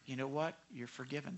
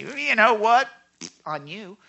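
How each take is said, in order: First: Much softer, lower "You know what? You're forgiven"; the pastor's real answer, a tender "you're forgiven" to someone apologizing; gentle forgiveness. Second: Loud, high "You know what?" dropping to a cold "On you"; the pastor's wrong answer, a spiteful "on you" to someone apologizing; spiteful retort. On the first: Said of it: "I say". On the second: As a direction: say it like you're about to get even. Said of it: "I don't say". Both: Shown as a demonstration.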